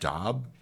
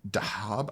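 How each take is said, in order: First: The name is said with one syllable. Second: The name is said with two syllables. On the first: The speaker calls it right. "but I think it's pronounced Dab" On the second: The speaker calls it wrong. "I said Dahab"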